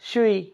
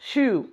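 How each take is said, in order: First: An extra vowel sound follows the long u. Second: It ends on a long u with nothing after. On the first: The speaker calls it wrong. "Not शुई" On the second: The speaker calls it right. "No, शू"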